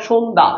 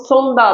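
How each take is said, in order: First: সন্ধ্যা said "shondha"; palatal sh. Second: সন্ধ্যা said "sondha", starting with English S; dental s, wrong way. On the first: Teacher showing what you must say, palatal sh. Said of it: "তোমাকে বলতে হবে". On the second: Teacher showing what you can't say, dental s. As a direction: hiss a plain s to open সন্ধ্যা. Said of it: "তুমি বলতে পারবে না". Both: Shown as a demonstration.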